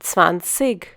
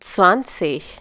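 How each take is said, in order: First: The ending is a hard 'g' sound. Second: The ending sounds like a soft 'ich'. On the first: "some people pronouncing this number as zwanzig. This is because they have a different dialect" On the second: "When g forms a part of an ig suffix, it is pronounced as ich"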